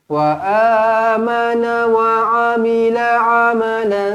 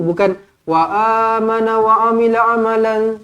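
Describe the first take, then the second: First: It is recited slowly and evenly. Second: It is recited quickly and rushed.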